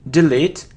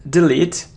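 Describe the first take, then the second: No difference in how they are said.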